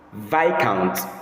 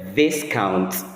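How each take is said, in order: First: It is said without an s sound before the k. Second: It is said with an s sound, like discount. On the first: The speaker calls it right. "It is correctly pronounced as Viscount" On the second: The speaker calls it wrong. "instead of mispronouncing it as Viscount"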